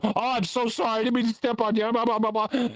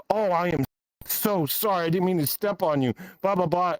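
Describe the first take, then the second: First: High-pitched imitation of a gushing apology; hammed-up sorry, running into high babble; flustered mock apology. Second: Imitating an over-apologetic stepper; mock apology. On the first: Mimics flustered apologizers a second time. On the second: Mimics people apologizing for stepping.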